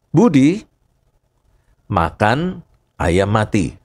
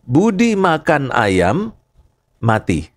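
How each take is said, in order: First: The pause comes right after Budi. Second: The pause comes right after ayam. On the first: Budi ate a dead chicken. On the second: Budi died from eating chicken.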